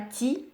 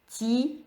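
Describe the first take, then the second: First: The i vowel is short and clipped. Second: The i vowel is drawn out longer. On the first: The speaker calls it wrong. "c'est pas ti" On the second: The speaker calls it right. "on tire un peu le i"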